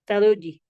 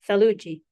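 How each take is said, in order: First: The word begins with a th sound. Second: The same.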